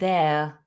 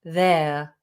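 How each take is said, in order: No difference in how they are said.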